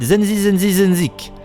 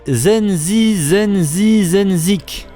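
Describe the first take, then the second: First: The name is said at a fast pace. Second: The name is said at a slower pace.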